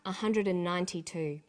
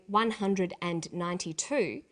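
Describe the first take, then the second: First: 'One' becomes 'a' and 'and' is squashed. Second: Each word, including 'and', is said fully.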